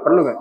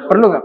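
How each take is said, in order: First: Said in the usual way. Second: Louder, higher. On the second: Real, not acted. (bertanya lebih keras dan tinggi)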